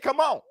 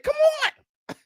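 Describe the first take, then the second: First: It is said in the speaker's own natural accent. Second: It is said imitating the other man's accent. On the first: This is how the speaker's own community says it. The speaker calls it right. "we say" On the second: This is how someone from another group says it. The speaker calls it wrong. "We don't say"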